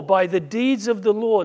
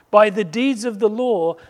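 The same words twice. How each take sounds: First: Said in the usual way. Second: "by" hit hard and loud, falling at the end; emphatic repeat. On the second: Shown as a demonstration. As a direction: lean on "by the deeds of the law" for weight. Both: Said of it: "now listen to this".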